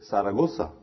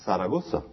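First: The z is said like an s sound. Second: The z is said like an s sound.

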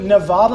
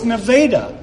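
First: It is said an outsider's way. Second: It is said the local way. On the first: The speaker is not from the area. The speaker calls it wrong. "I wanted to go to Nevada" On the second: The speaker is from the area. The speaker calls it right. "I found out, no, it's Nevada"

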